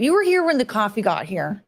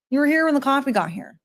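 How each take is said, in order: First: Said in the usual way. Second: Higher, stress on "here" at the end; insistent repeat. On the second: Shown as a demonstration. Correcting a friend about the coffee, insistent "here". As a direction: press the final "here" to insist.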